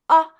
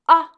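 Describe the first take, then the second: No difference in how they are said.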